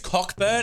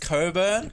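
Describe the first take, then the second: First: The 'ck' sound is clearly pronounced. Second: The 'ck' sound is left out entirely. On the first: The speaker calls it right. "the C and K aren't silent here" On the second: The speaker calls it wrong. "you say it's Coburn"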